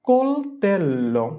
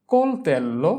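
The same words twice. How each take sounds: First: কোলতেল্লো stretched slowly, syllable by syllable; slow model pronunciation. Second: Said in the usual way. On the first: Shown as a demonstration. Teacher joins the syllables for students, slow and drawn out. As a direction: draw out কোলতেল্লো for learners.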